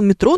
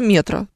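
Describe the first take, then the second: First: The stress falls where it does for subway. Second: The stress falls on an unusual syllable. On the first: It is read as the ordinary word for subway. The speaker calls it wrong. "у меня мама действительно говорила «метро»" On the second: It names the wholesale store chain. The speaker calls it right. "такое ударение"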